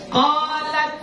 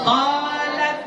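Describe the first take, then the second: No difference in how they are said.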